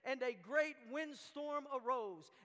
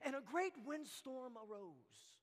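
First: It is read in a plain, even way. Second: It is read in a dramatic, intense way.

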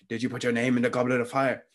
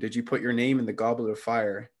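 First: The question is asked in an agitated voice. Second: The question is asked in a calm voice.

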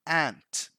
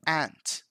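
The two takes are said the same way.

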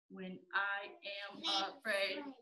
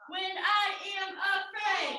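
First: It is said in a robot voice. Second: It is yelled loudly.

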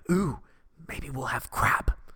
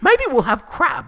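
First: It is said in his normal voice. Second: It is said imitating his mom's voice.

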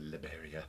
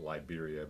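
First: The name is said with a Spanish pronunciation. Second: The name is said with an English pronunciation. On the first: This is how locals say it. "I think they pronounce it Liberia or something" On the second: This is how visitors call it. "we call it Liberia"

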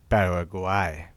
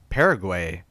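First: The name is said with a Spanish-style pronunciation. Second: The name is said with an English pronunciation.

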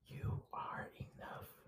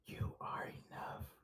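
First: It is said in a soft whisper. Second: The same.

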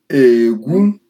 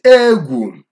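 First: The tone goes from low to high. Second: The tone goes from high to low. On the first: It means to dig. "Low tone, high tone, yes" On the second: It means fear. "High, low, yes. And that would be fear"

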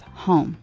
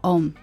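First: The word starts with an H sound. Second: The word starts without an H sound.

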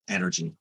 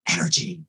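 First: The word is said in a calm, flat voice. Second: The word is said in a lively, energetic voice. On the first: The speaker calls it wrong. "why would it be like calm, relax?" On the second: The speaker calls it right. "Why wouldn't I say energy?"

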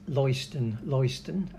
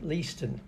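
First: The first vowel is not an 'ee' sound. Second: The first vowel is an 'ee' sound. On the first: The speaker calls it wrong. "apparently I call Leiston" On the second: The speaker calls it right. "it should be Leiston"

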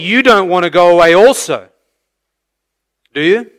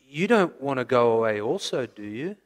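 First: The question sounds sure and confident. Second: The question sounds worried and fearful. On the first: The asker expects them to say no. The speaker calls it right. "No, he is not fearful that they want to leave" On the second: The asker fears they might leave. The speaker calls it wrong. "as though it's out of fear that the 12 might leave. You could read it like this"

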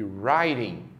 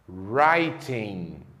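First: The middle t is a quick tap. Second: The middle t is a crisp t. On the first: "No inglês norte-americano, provavelmente elas vão soar assim" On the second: "Já no inglês britânico, a letra T tem sempre o som de T"

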